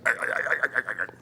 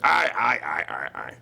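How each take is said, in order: First: The laugh is fast. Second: The laugh is slow.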